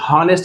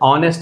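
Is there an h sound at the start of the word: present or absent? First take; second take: present; absent. First: The word begins with an h sound. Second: The word begins with a vowel sound. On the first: The speaker calls it wrong. "హానెస్ట్ అనకూడదు" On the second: The speaker calls it right. "ఆనెస్ట్ అని మాత్రమే అనాలి"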